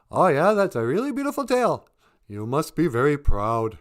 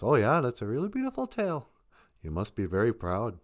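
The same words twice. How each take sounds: First: Much higher, loud bird voice; chirpy crow. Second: A hint of a patient bear humouring a show-off; easygoing bear. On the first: Acted. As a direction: chirp a polite compliment. Crow answers the beaver. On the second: Bear politely answers the beaver.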